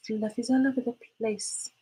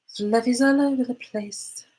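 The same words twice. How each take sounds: First: Higher but softer playful repeat of Fluffies; a hushed crooning echo of Fluffies all over the place; soft sing-song. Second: Higher, slow playful sing-song on fluffies; sing-song complaint. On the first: Repeating the cat-fluff complaint, softer and sing-song. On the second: Fluff everywhere from the cat, she sings it out playfully. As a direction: croon Fluffies all over the place, drawn out. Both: Pretend.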